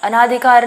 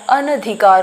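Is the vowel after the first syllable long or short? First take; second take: long; short. First: The second syllable has a long 'aa' vowel. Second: The second syllable has a short 'a' vowel. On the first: The speaker calls it wrong. "अनाधिकार नहीं होता है" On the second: The speaker calls it right. "अनधिकार होता है"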